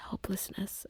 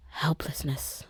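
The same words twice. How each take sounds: First: "Helplessness" whispered higher and much softer; "Helplessness" as a faint, high breath. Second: "helplessness" whispered, falling away; "helplessness" as a sinking whisper; whispered word. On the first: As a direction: lift "Helplessness" up and let it almost vanish. Repeats the word, overcome. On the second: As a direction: breathe "helplessness" out with a falling tune. Describing her despair. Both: Real, not acted.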